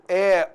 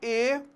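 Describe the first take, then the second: First: The vowel is said with an open quality. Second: The vowel is said with a closed quality. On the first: "nós temos aqui o timbre aberto" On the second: "e o timbre fechado"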